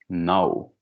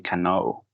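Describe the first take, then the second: First: The word starts with an N sound. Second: The word starts with a K sound. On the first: The speaker calls it right. "you don't pronounce letter K" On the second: The speaker calls it wrong. "You don't say cano"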